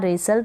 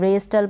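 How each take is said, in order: First: The t is silent in the middle. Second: The t is sounded in the middle. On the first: The speaker calls it right. "डब्ल्यू भी silent है और टी भी यहाँ पर silent है" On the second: The speaker calls it wrong. "रेस्टल पढ़ दें, गलत हो जाएगा"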